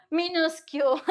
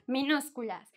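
First: "minúscule" ending in English-like "kyool"; joking mispronunciation. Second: Said in the usual way. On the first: Shown as a demonstration. Teacher joking about minúsculas, playful mispronunciation "minúscule". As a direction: playfully say "minúscule" without the Spanish "-las" ending. Joke form against the Spanish word.

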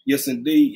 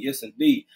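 First: Said in the usual way. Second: Whispered echo. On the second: Real, not acted. Streamer whispers agreement to a viewer's comment, hushed. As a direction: whisper it back to yourself.

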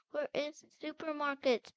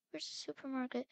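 First: Frustrated, emphatic "supermarket"; insistent repeat. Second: Said in the usual way. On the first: Pretend. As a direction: stress each word of "Where is the supermarket". Repeats question more insistently.

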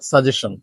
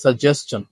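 First: Suggestion as sa-JE-shun, no ch; wrong pronunciation. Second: সাজেশন with s-ch, sa-JES-chun; correct pronunciation. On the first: Teacher warns against this form, wrong pronunciation. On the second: Teacher models word nine, correct pronunciation. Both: Shown as a demonstration. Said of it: "not suggestion".

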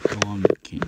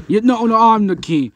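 First: Low, understated play-voice retort; calm rival monster. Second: High, loud mock insistence; insistent rival monster. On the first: Pretend. Rival monster disputing who is king, low retort. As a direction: counter it low and unruffled. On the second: Monster claiming the crown from a rival, loudly insisting. Two monsters argue who is king.

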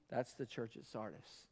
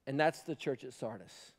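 First: Fading almost to a whisper, lower still; near whisper. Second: Much softer, lower, hushed statement. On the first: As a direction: let it die away to nothing. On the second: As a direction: drop to a sombre hush. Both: Real, not acted. Hushed repeat after shouting.

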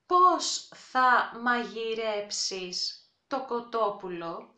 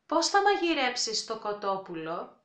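First: Slow, clear Πώς θα μαγειρέψεις το κοτόπουλο; with a rise at the end; slow demo. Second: Πώς θα μαγειρέψεις το κοτόπουλο; fast natural take. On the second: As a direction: at brisk native speed. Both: Shown as a demonstration.

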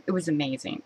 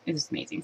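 First: Said in the usual way. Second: Awed whisper. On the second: Real, not acted. Repeats phrase, then whispers it.

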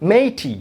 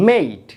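First: মেইটি as two syllables, "may-tee"; wrong, final E sounded. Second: মেইট as one syllable "mayt", falling; long A, silent E. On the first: Teacher showing what we don't say, two-syllable মেইটি. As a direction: add an "ee" to the end of মেইটি. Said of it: "আমরা কিন্তু বলছি না". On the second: Teacher showing first vowel sounded, long মেইট. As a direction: hold the "ay" glide in মেইট. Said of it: "প্রথমটি উচ্চারিত হবে". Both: Shown as a demonstration.

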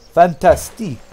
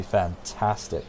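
First: FANTASTIQUE louder and higher, Frenchified; mock French accent. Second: Said in the usual way. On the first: Player relishing the idea, "Fantastique" in mock French. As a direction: say "Fantastique" with a playful French ending, fan-tas-TEEK.

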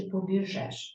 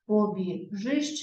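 First: "побіжеш" slowly with final еш; е instead of и. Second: "Побіжиш" slowly with final иш; clear и vowel. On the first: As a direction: sound out the wrong е ending of "побіжеш". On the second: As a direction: sound out the и ending of "Побіжиш". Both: Shown as a demonstration.

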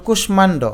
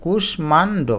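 First: কুষ্মাণ্ড as one word "kush-mando", m sounded. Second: কুষ্মাণ্ড in separate parts, "kush, maan, do"; split into syllables. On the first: Teacher giving an example, কুষ্মাণ্ড with sounded m. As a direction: say কুষ্মাণ্ড whole with its m. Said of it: "এই ম কিন্তু উচ্চারিত হলো". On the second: Teacher showing the sounded m, কুষ্মাণ্ড syllable by syllable. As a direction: break up কুষ্মাণ্ড to expose the m. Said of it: "এই যে দেখো". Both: Shown as a demonstration.

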